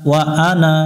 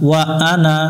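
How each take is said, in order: The two takes are said the same way.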